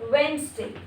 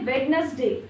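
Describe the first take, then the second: First: The middle 'd' and 'ne' are left out. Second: The middle 'd' and 'ne' are pronounced. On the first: The speaker calls it right. "वेंसडे होगा" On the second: The speaker calls it wrong. "ये भी वेडनेसडे नहीं है"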